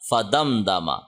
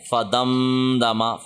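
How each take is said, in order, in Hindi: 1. m छोटा होता है, उसमें नाक की गुन्ना नहीं होती। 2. m को नाक की गुन्ना के साथ लंबा खींचा जाता है।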